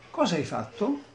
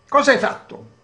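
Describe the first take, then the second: First: The question sounds gentle and calm. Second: The question sounds harsh and imposing. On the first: The child does not feel accused. "Sentite com'è diverso" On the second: The child feels accused and threatened. "un tipo di educazione del- impositiva, del tipo"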